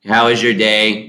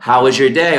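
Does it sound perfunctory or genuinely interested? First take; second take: perfunctory; genuinely interested. First: It is said in a flat, perfunctory way. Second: It is said with genuine, warm interest.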